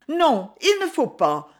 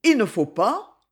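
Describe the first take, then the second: First: Higher-pitched exclamation of refusal; exclaimed protest. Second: "Il ne faut pas" rising into a question; questioning echo. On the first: Young woman pulling back from his kiss, exclaimed protest. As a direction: cry out the refusal, pitch jumping up. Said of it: "s'écria la jeune fille". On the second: Young man querying her refusal, "Il ne faut pas" said as a rising question. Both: A narrator's reading.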